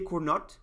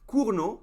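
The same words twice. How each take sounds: First: The final T is sounded. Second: The final T is silent. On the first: The speaker calls it wrong. "please don't say Cournot" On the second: The speaker calls it right. "which is the correct way to say it"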